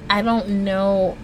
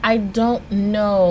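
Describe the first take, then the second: No difference in how they are said.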